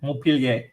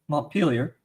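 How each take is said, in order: First: It is said with a Quebec French accent. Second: It is said with an American accent.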